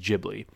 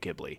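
First: The name is said in the Japanese way. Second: The name is said in the Americanized way. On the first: "I believe the Japanese term of saying it is Ghibli" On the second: "I called it Studio Ghibli"

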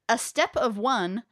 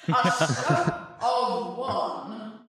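First: It is read in a plain, normal voice. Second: It is read in a put-on mystic voice.

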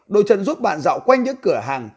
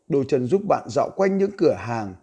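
First: It is read in a high voice. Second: It is read in a deep bass voice.

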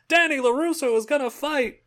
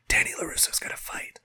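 First: It is said in a full, loud voice. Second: It is said in a quiet whisper. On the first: Everyone now openly shares the news. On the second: The news is first passed on secretly.

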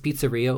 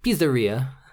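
First: The word is said in a plain, ordinary way. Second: The word is said imitating another person's pronunciation.

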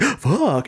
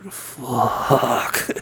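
First: It is said in an optimistic tone. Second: It is said in a pessimistic tone.

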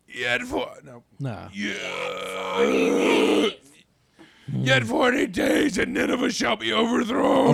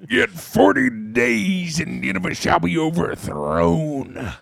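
First: The voice sounds damaged and awful. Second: The voice sounds like a pro wrestler. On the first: "Maybe like" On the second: "maybe he just sounded like a pro wrestler"

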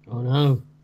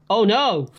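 First: It sounds flat and unconvincing. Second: It sounds genuinely alarmed and convincing.

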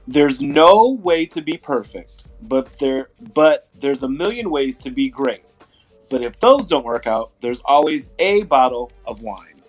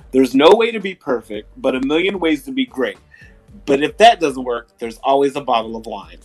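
First: It is said slowly. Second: It is said at normal speed.

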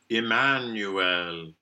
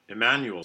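First: The final syllable has a clear e vowel. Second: The final syllable has a weak schwa vowel. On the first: "we can opt for Emmanuel" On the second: "usually with schwa"

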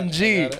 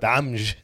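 First: It is spelled out as plain English letters. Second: It is said as one Arabic-accented word, Amj.

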